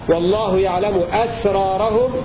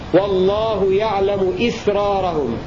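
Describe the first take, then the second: First: The first vowel of the last word is 'a'. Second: The first vowel of the last word is 'i'. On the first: It means their secrets. "بفتح الهمزة هكذا" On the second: It means their act of concealing. "بكسر الهمزة فيه"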